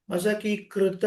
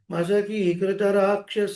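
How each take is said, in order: First: మసకీకృత with a doubled, hard k before "ruta"; hard kru, wrongly. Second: మసకీకృత with a light, undoubled "kru"; simple, soft kru. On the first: Teacher showing the mistake, మసకీకృత with heavy "kkru". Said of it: "మసకీకృత రాక్షస సరళంగా". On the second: Teacher correcting, మసకీకృత with an easy single "kru". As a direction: glide from long "kee" into a light "kru" in మసకీకృత. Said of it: "సరళంగా". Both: Shown as a demonstration.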